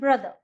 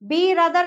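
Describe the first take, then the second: First: It begins with a plain short b sound. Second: It begins with the letter name 'bee'. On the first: The speaker calls it right. "हम बोलते हैं ब्रदर" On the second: The speaker calls it wrong. "बी रदर नहीं बोलते हम"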